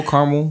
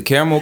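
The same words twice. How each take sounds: First: Caramel? squeezed to two syllables, car-mel, rising. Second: Caramel said in three syllables, kare-uh-mel. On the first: Asking his friend which way, caramel? as car-mel. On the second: Asking his friend which way, caramel as kare-uh-mel. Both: Shown as a demonstration. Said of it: "Three syllables?".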